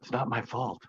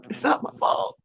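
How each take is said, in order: First: Said in the usual way. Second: High, breathy sarcastic mock protest; mock whiny falsetto. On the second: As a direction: say it like a pouty fake excuse, way up high. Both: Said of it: "The sarcasm just came out".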